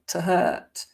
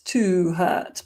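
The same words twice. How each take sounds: First: The word 'to' is reduced to a schwa. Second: The word 'to' has a full vowel. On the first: The speaker calls it right. "but to hurt" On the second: The speaker calls it wrong. "not to hurt"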